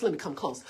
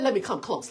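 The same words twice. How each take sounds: First: Dropped low and soft. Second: Said in the usual way. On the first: Shown as a demonstration. Pastor leaning in to his listeners, low and hushed. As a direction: lower and much softer, drawing in close. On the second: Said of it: "Let, let, let, let".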